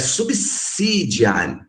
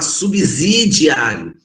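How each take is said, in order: First: The middle consonant is a voiceless s sound. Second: The middle consonant is a voiced z sound. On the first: The speaker calls it right. "É" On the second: The speaker calls it wrong. "também está errado falar"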